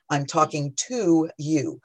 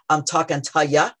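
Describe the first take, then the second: First: The last word is a full, clear 'you'. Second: The last word is reduced to a quick 'ya'. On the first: The speaker calls it right. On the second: The speaker calls it wrong.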